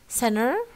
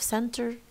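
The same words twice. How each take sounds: First: The middle T and N are dropped. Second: The middle T and N are fully pronounced. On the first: "dropping T and N in medial positions as in center" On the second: "instead of center"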